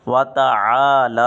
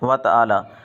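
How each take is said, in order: First: The middle consonant is a throaty ayn. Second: The middle consonant is a glottal stop. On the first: The speaker calls it right. "सही तलफ़्फ़ुज़ ये है" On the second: The speaker calls it wrong. "आइन को हमज़ा पढ़ देते हैं"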